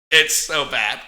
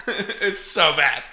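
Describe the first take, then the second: First: Said in the usual way. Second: Slowed down, laughing through it. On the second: Real, not acted. Host reviewing a bad movie, laughing. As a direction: laugh it out, amused disbelief.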